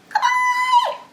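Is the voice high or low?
high. The word is said in a high, squeaky voice. "really high squeaky voices"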